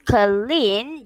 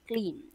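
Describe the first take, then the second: First: The word is split into two syllables. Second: The word is said as one syllable. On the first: The speaker calls it wrong. "Instead of clean" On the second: The speaker calls it right. "just one syllable"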